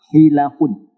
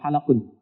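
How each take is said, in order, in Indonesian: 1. Vokal pertama adalah bunyi 'i'. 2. Vokal pertama adalah bunyi 'a'. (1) "hilakun. Ya, jamak dari halaqah" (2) "bukan halakun"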